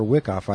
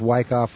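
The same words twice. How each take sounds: First: "Wickoff" with first syllable like "wick"; short-i pronunciation. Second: "Wyckoff" with first syllable like "wike"; long-i pronunciation. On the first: Host unsure of the touring couple's surname, "Wickoff" with short i. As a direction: say "Wickoff" with the vowel of "win". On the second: Host unsure of the touring couple's surname, "Wyckoff" with long i. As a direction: say "Wyckoff" with the vowel of "wine". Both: Shown as a demonstration. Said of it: "if it's Wyckoff or Wickoff".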